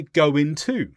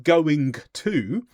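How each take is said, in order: First: "go into" run together as goin-to, no hard g; connected-speech "go into", g dropped before the t; dropped consonant. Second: "going to" with the final g of "going" fully sounded; careful, unlinked "going to"; full 'going to'. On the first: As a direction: link "go into" as one smooth connected phrase. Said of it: "drop the consonant at the end". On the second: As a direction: pronounce every consonant in "going to". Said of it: "instead of saying going to". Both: Shown as a demonstration.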